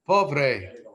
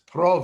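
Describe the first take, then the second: First: The R follows the second consonant. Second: The R follows the first consonant. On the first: This is the standard Spanish form. "Look at the R again" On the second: This is how Ladino speakers say it. "It's prove to us"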